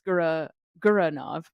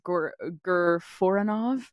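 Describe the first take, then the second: First: The name is said without 'four' inside it. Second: The name is said with 'four' inside it. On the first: The speaker calls it right. "but we now know that it is" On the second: The speaker calls it wrong. "Stacy told me she always pronounces it as"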